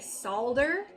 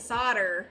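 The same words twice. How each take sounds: First: The L sound is clearly pronounced. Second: The L sound is left out. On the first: This is the older form of the word. "with an L" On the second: This is the later, shortened form of the word. "got cut off to solder"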